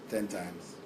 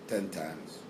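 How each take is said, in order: The two takes are said the same way.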